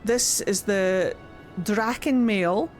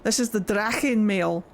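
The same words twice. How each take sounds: First: It is said in the speaker's ordinary accent. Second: It is said in a Scottish accent, throaty ch.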